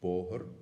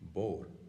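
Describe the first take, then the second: First: It is said with two syllables. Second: It is shortened to one syllable, Connacht style.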